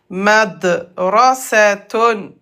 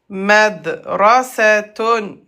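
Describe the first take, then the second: Both takes have the same delivery.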